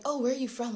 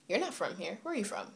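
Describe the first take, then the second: First: Imitated amazement, higher and louder; amazed. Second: Matter-of-fact challenge, imitated; not amazed. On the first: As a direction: ask it as if pleasantly amazed. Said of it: "like, amazement". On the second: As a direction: question them without any amazement. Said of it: "like, amazement. It's like".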